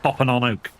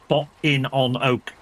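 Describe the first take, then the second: First: The phrase is said at normal speed. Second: The phrase is said slowly and carefully.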